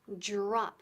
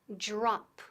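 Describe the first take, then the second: Both takes have the same delivery.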